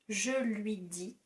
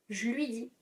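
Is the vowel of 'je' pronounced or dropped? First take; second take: pronounced; dropped. First: The vowel of 'je' is pronounced. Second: The vowel of 'je' is dropped.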